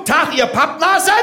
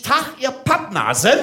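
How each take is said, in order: First: High, barked drill-sergeant greeting; punchy parade-ground call; with punch. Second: Said in the usual way. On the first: Shown as a demonstration. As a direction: fire it at the crowd after calling attention. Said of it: "mit Schmack. Ist okay, Achtung". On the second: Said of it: "ich sag zu euch".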